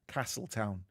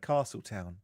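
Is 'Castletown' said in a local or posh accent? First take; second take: local; posh. First: It is said with a local Manx accent. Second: It is said with a posh English accent. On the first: The speaker calls it right. "I get told off that it's Castle, Castletown" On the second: The speaker calls it wrong. "So I say Castletown ... I'm a bit too posh"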